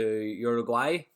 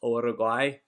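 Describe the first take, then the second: First: It is said with an English accent. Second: It is said with a Spanish accent.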